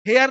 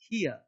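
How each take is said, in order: First: The vowel sounds like the one in 'hair'. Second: The vowel sounds like the one in 'hear'. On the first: The speaker calls it wrong. "हेयर नहीं" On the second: The speaker calls it right.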